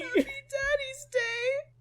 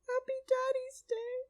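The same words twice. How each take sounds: First: It is said loudly. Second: It is said quietly.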